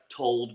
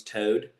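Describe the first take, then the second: First: Said in the usual way. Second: "toad" for told, the L swallowed into a long o; East Kentucky pronunciation. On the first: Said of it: "like, the "o," like". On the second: Shown as a demonstration. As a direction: say "toad" with no L, just a drawn-out o. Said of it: "becomes "toad".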